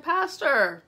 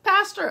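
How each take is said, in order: First: High, somewhat loud second call; calling out again. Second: High, loud call across the room. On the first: The speaker calling the pastor a second time, raised. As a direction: call him once more, a bit less hard. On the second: The speaker calling out loudly to the pastor at the repast. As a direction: call out to get his attention. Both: Retold or imitated.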